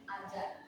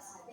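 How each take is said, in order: First: The word begins without an s sound. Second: The word begins with an s sound. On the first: "bunyi di awal S itu fonemnya S itu dihilangkan" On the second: "bunyi di awal S itu fonemnya S itu dihilangkan jadi dari kata saja"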